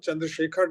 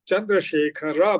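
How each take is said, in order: First: The name ends in a bare consonant. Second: The name ends with a full vowel sound. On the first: The speaker calls it wrong. "न बुला करके" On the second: The speaker calls it right. "र पूरा बोलना है"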